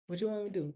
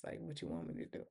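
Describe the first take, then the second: First: Said in the usual way. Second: Breathless whisper, fast. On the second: Retold or imitated. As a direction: whisper it like a scared secret. Danny refuses to snitch, whispered.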